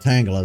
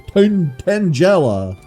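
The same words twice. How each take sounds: First: The name is said with English pronunciation. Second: The name is said with Japanese pronunciation. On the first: "Instead of Tangela" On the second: "how the anime pronounces it"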